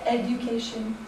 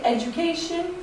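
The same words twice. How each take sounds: First: Education with a pure D, no J sound; clean D. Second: Education with a J sound, edjucation; American education. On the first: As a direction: say education with a clear D before the U. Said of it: "instead of education". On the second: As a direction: say education with D turning into J. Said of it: "add J's between D's and U's". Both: Shown as a demonstration.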